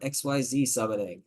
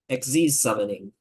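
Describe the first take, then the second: First: Xyz is spelled out letter by letter. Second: Xyz is said as one word. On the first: The speaker calls it wrong. "I didn't call it X Y Z summoning" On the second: The speaker calls it right. "That's how you say it"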